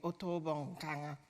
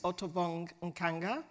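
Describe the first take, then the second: First: The name is said with a softer sound. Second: The name is said with a harder, stronger sound. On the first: This is how the family says the name. "but it's softer" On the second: This is how most people say the name. "I'm pronouncing it now the way everybody pronounces it"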